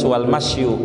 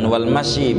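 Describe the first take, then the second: First: The last word ends with a 'u' vowel. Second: The last word ends with an 'i' vowel. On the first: The speaker calls it right. "dibacanya yang bagus wal masyu" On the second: The speaker calls it wrong. "Jangan wal masyi bacanya"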